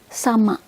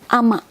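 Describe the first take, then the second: First: The word begins with an s sound. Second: The word begins directly with the vowel. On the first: "I will say the with with sama" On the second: "we don't say the initial, we just say it ama"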